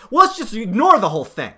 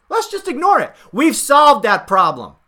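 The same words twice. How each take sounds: First: Said in the usual way. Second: Mocking the campaign's dismissal, sarcastic and smug. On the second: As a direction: parrot the campaign with sneering sarcasm.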